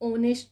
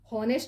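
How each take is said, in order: First: The word starts directly with a vowel sound. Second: The word starts with an audible h sound. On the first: The speaker calls it right. "ઓનેસ્ટ વંચાય" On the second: The speaker calls it wrong. "હોનેસ્ટ નહીં વંચાય"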